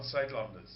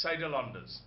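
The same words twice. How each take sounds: First: Saidlanders in three syllables, "Said-landers"; standard pronunciation. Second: Saidlanders as "Saida-landers", extra vowel in the middle; friend's pronunciation. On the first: Shown as a demonstration. Giving the version the friend rejects, Saidlanders said as "Said-landers". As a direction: run Said straight into landers in Saidlanders, no vowel between. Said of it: "not Saidlanders".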